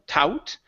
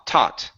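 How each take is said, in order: First: The vowel sounds like 'ow'. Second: The vowel sounds like 'ah'. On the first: The speaker calls it wrong. "with an ow sound" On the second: The speaker calls it right. "it's only going to be ah"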